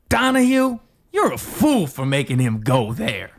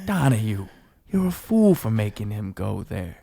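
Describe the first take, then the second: First: It sounds sly and snarky. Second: It sounds sad.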